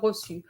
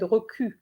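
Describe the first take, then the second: First: The middle consonant is an s sound. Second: The middle consonant is a k sound. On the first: The speaker calls it right. "the sound su" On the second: The speaker calls it wrong. "most of the students said"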